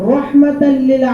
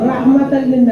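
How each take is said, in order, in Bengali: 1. 'ra' ধ্বনিতে গোলাকার 'o' স্বরধ্বনি আছে। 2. 'ra' ধ্বনিতে খোলা 'a' স্বরধ্বনি আছে।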